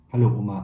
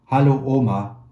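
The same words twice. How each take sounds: First: Louder hello to grandma on the phone; said loudly. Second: Near-shout, higher and much louder; almost shouting. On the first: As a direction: raise the voice for a bad phone line. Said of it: "antwortete ich laut". (laut ins Telefon zur Oma) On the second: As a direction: yell it so grandma can hear over the phone. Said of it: "ich schrie fast". (fast geschrien, höher und viel lauter) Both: A narrator's reading.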